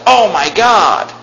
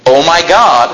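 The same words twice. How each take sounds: First: Drawn-out mock exclamation; imitating. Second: Said in the usual way. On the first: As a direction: mimic someone swearing casually. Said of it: "cuss God's name". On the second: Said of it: "I'm against saying that".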